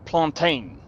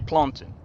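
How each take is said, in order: First: The ending does not sound like mountain's. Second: The ending sounds like the end of mountain. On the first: The speaker calls it wrong. "like you call it plantain, and I was just like, that's not how you say it" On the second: The speaker calls it right. "You just basically say it like mount, like how you say mountain"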